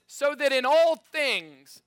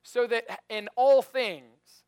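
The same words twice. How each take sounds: First: Slow, loud, high with all stressed; emphatic scripture reading. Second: Slow, loud, "all" drawn out; slow emphatic repeat. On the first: Pastor reading the verse slowly for emphasis. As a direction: lean into "all". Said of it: "this is really important to me". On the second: Pastor repeating the promise slowly for emphasis. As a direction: savour every word. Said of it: "That sounded almost like a guarantee". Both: Shown as a demonstration.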